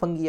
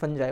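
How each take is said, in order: First: A hard g, ending in an ee sound. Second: A soft j sound, ending in eye. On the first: "फंगी जो आप बोलते हैं ना ... वो गलत है" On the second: "या फिर फंजाई, वो गलत है"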